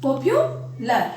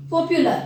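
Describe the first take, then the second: First: popular slowly, with a long pause before "lar"; drawn-out popular, halted at the syllable break. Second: Said in the usual way. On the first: Shown as a demonstration. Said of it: "यहाँ पे syllable आ गया आपका". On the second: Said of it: "यहाँ पे syllable आ गया".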